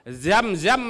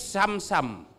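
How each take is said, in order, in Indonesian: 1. Kata ini diawali dengan bunyi 'z'. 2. Kata ini diawali dengan bunyi 's'. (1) "Zam-zam menjadi Sam-sam" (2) "Zam-zam menjadi Sam-sam"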